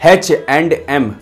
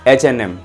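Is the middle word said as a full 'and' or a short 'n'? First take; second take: full and; short n. First: The middle word is a full 'and'. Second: The middle word is a short 'n'. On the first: The speaker calls it wrong. "एच एन एम को ऐसे नहीं बोला जाता है" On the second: The speaker calls it right. "उसका जो pronunciation है उसको बोला जाता है एच एन एम"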